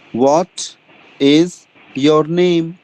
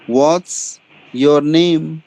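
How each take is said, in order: First: 'What is' is said as two full words. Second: 'What is' is shortened into one word.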